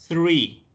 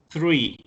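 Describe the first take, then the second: The two takes are said the same way.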